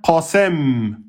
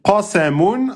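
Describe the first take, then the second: First: The word stops on its final consonant. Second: The word ends with a final 'un' sound. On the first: "à l'arrêt devient qasem"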